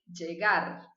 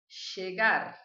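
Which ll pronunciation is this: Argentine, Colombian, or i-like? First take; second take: Colombian; Argentine. First: The ll is said with a Colombian accent. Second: The ll is said with an Argentine accent. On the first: "na Colômbia eles vão falar" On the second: "da Argentina e do Uruguai"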